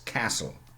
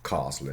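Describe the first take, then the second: First: The first vowel is short and flat. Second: The first vowel is long and open. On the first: The speaker calls it right. "just as in American English or Northern English" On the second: The speaker calls it wrong. "English mannerism"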